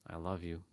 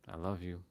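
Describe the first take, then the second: No difference in how they are said.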